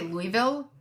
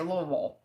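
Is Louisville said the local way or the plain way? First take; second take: plain; local. First: The name is said plainly, as it looks. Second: The name is said in the local way. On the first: The speaker calls it wrong. "You can't just say Louisville" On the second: The speaker calls it right. "You have to say Louisville"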